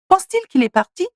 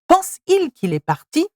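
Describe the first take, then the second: First: A t sound links the verb to the pronoun. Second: The verb runs straight into the pronoun without t. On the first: The speaker calls it right. "Sounds better" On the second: The speaker calls it wrong. "Remove the te and it's pense-il qu'il est parti? Doesn't sound good"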